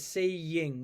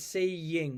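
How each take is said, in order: First: A y sound links the two vowels. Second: The same.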